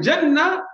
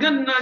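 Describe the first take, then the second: First: The word starts with a j sound. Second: The word starts with a hard g sound. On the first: The word means paradise. The speaker calls it right. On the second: The word sounds like sugarcane in Urdu. The speaker calls it wrong.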